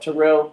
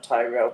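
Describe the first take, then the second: First: The first syllable sounds like 'teh'. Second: The first syllable sounds like 'tie'. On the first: The speaker calls it right. "Terrell, not Tyrell" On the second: The speaker calls it wrong. "not Tyrell"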